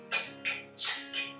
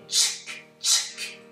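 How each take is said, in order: Both takes have the same delivery.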